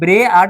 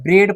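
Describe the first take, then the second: First: The word is split into two syllables. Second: The word is said as one syllable. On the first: The speaker calls it wrong. "नहीं पढ़ते हैं" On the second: The speaker calls it right. "ब्रेड पढ़ते हैं"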